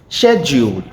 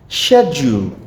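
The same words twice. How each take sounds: Both takes have the same delivery.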